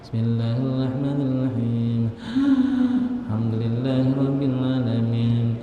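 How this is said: There is a pause between the verses.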